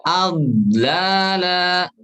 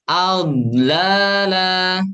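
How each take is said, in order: No difference in how they are said.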